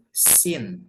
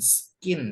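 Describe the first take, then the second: First: No k sound follows the s. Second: A k sound follows the s. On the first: The speaker calls it right. "C-nya nggak usah dibaca" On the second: The speaker calls it wrong. "ini bacanya bukan skin ya"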